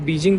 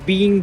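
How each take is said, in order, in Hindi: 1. बीच का व्यंजन अंग्रेज़ी का कठोर j है। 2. बीच का व्यंजन नरम है, लगभग गायब। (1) "ये हम बीजिंग बोलते हैं" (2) "बीइंग बोलते हैं"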